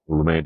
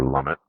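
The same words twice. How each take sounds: First: "Lumet" as loo-MAY; French-style pronunciation. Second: "Lumet" as LUM-it; anglicized pronunciation. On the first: Vlogger on the director's skill, French-style "Lumet" as loo-MAY. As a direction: end "Lumet" on "ay", no t. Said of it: "I don't think he's French". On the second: Vlogger unsure of the name, offering "Lumet" as LUM-it. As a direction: say "Lumet" like "summit" with an L. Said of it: "what do you call him?". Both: Shown as a demonstration.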